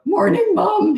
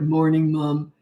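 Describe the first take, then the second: First: The voice is high and cracking. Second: The voice is deep and manly.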